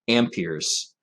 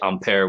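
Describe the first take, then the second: First: The word is said with an American pronunciation. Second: The word is said with a French pronunciation. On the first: "in America ... we say amperes" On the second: "don't give the French pronunciation. We don't say ampere"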